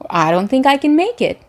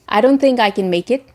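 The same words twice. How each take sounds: First: The pitch moves up and down across words. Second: The pitch stays flat across the sentence. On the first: The speaker calls it right. "you can say" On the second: The speaker calls it wrong. "instead of saying"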